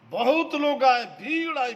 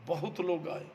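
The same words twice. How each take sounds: First: Louder, higher preaching cry; emphatic call. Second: Said in the usual way. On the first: Real, not acted. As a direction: throw बहुत लोग आए out to the crowd. Repeat, much louder, higher. (बहुत लोग आए ऊँची, ज़ोरदार आवाज़ में)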